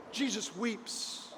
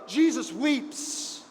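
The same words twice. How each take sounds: First: "Jesus weeps" repeated much softer and slow, almost breathed; hushed repeat. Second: Said in the usual way. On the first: Shown as a demonstration. Preacher repeating the verse to the congregation, hushed. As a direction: let "Jesus weeps" fall to a hush.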